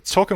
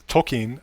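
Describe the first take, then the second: First: The second vowel is reduced to a schwa. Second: The second vowel is said as a full vowel. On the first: The speaker calls it wrong. "I've been slurring that with the schwa" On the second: The speaker calls it right. "I'm trying to get used to saying it that way"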